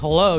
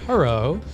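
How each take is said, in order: First: The word is said with a clear L sound. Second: The word is said with an R sound. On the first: "instead of saying hello" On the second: "pronounce your L's as R's"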